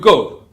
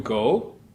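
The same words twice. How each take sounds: First: The pitch falls on the word. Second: The pitch rises on the word. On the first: It angrily orders someone to leave. "That go is the falling tone" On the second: It asks a general question. "That's the rising tone"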